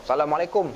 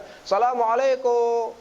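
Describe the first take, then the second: First: Said in the usual way. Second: Drawn-out, high Syrian-style salam. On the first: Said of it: "Salam dia cara macam tu". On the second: Shown as a demonstration. Lecturer showing how a Syrian gives salam, drawn out. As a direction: sing the greeting the Syrian way, slow and lifted. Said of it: "dia bagi salam pun ada cara dia".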